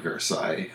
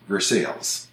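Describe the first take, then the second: First: "Versailles" as "vair-SIGH", silent final letters; French-style "Versailles", rhyming with "sigh"; French pronunciation. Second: "Versailles" as "ver-SALES"; small-town American "Versailles", sounded "ver-SALES"; American local pronunciation. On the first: French name against American version. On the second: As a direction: say "Versailles" as spelled, ending like "sales". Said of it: "they're all called, pronounced". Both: Shown as a demonstration.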